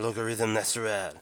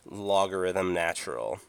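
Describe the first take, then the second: First: It is said with a bad French accent. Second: It is said in the speaker's normal accent.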